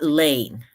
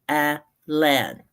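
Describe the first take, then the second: First: The last syllable has a long vowel. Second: The last syllable has a short vowel. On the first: The speaker calls it wrong. "not lane" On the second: The speaker calls it right. "this one should be short"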